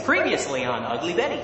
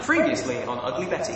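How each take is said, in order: First: American TV recap accent. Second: Said in the usual way. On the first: Shown as a demonstration. Brit doing show recap line, American accent. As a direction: announce it as American TV. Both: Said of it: "my best American accent".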